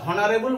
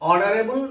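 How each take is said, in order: First: The word starts with an h sound. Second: The word starts with a vowel, no h sound. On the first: The speaker calls it wrong. "আমরা হনারেবল বলি না" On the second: The speaker calls it right. "উচ্চারণটা শুরু হচ্ছে কোথায়? এখান থেকে।"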